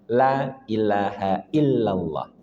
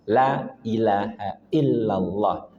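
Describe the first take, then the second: No difference in how they are said.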